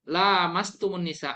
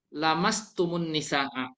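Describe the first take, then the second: First: The vowel after the first L is long. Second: The vowel after the first L is short. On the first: "panjang kayak gini" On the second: "Itu tidak panjang, dibaca"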